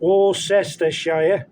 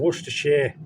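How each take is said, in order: First: Every written syllable of the name is pronounced. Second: The name is shortened to fewer syllables. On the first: The speaker calls it wrong. "nobody says that" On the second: The speaker calls it right. "Everyone says Worcestershire"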